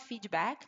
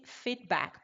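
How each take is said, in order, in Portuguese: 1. Sons de vogal extra seguem o d e o k. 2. Não há vogais extras depois do d e do k. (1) "brasileiro vai falar feedback" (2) "a pronúncia correta é sempre feedback, porque não tem um i"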